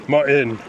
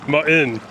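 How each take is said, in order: No difference in how they are said.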